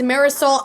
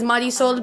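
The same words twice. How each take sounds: First: The name is said with English-style pronunciation. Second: The name is said with Spanish-style pronunciation. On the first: This is how most viewers know the name. "you all may know her as Marisol"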